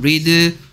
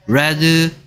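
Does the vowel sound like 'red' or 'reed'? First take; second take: reed; red. First: The vowel is long, as in 'reed'. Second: The vowel is short, as in 'red'. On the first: It is the present-tense form. "글자는 똑같이 쓰는데 발음만 read" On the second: It is the past-tense form. "발음만 read, red, red라고 하는 거죠"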